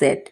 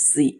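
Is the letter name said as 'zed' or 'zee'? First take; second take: zed; zee. First: The letter name is said as 'zed'. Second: The letter name is said as 'zee'. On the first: The speaker calls it wrong. "অনেক সময় আমরা এটাকে বলি জেড" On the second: The speaker calls it right. "Actually এটার উচ্চারণ জি"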